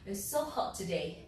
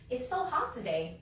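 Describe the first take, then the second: First: It is said in a British accent. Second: It is said in an American accent.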